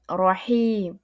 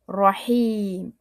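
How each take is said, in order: No difference in how they are said.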